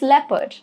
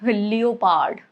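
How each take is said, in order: First: The O after the first E is silent. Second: The O after the first E is pronounced. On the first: The speaker calls it right. "it's leopard ... O is silent here" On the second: The speaker calls it wrong. "You don't say it as leopard"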